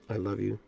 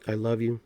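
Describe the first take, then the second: First: I love you said gently and much softer; soft, tender self-talk. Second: Said in the usual way. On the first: Shown as a demonstration. Speaking to yourself in the mirror, soft tender murmur. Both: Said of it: "doing the inflections".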